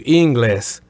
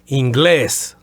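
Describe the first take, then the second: First: The stress is on the first syllable. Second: The stress is on the last syllable. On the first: The speaker calls it wrong. "as opposed to inglés" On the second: The speaker calls it right. "the accent is over the E, so you would say inglés"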